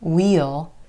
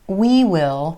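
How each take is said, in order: First: It is a contraction with a clear vowel. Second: It is said as two full words. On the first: "can become we'll" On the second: "We will can become we'll"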